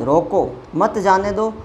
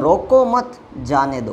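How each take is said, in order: First: "रोको" alone, then "मत जाने दो" run together; pause after रोको. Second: "रोको मत" run together, break, then "जाने दो"; pause after मत. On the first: Teacher contrasting both meanings, stopping sense with break after "रोको". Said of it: "एक तरफ रोकने की बात". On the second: Teacher contrasting both meanings, letting-go sense with break after "मत". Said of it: "दोनों का सेंटेंस का भाव अलग". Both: Shown as a demonstration.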